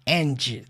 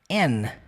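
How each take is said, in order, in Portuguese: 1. Ele é dito por completo, com um d final. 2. Ele é reduzido a um simples som de n. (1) "Você não fala and, ... Não tem esse d" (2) "você só fala n"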